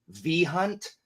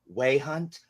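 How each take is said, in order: First: It begins with a V sound, English-style. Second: It begins with a W sound, Latin-style.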